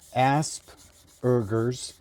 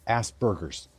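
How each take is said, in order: First: The word is said slowly and carefully. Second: The word is said quickly and run together.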